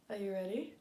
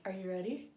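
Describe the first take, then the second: No difference in how they are said.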